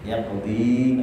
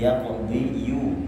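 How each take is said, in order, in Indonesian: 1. Kata ini berakhir dengan bunyi i biasa. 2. Kata ini berakhir dengan suku kata yu yang ditambahkan. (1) "Yaqdi hanya demikian" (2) "Kalau mau ditambahkan yaqdi jadi yaqdi yu"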